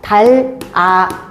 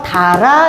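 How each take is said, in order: First: The two syllables are said apart with a break. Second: The two syllables run together without a break. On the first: "달, 아, 되고" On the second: "연음이 돼서 달아"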